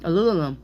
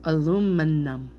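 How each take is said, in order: First: Aluminum rushed into "alulelom"; too fast, garbled. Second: Slowed down. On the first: Reader slipping back into saying it too fast, garbled. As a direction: hurry "Aluminum" so the n and m turn to l. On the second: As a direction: draw out each syllable of "Aluminum". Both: Shown as a demonstration. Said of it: "saying it too fast".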